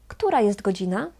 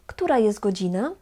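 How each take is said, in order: First: The t at the end of jest is dropped. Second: The same.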